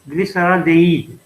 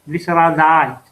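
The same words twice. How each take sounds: First: The word is pronounced the French way. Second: The word is pronounced the English way.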